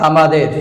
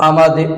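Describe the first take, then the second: Both takes have the same delivery.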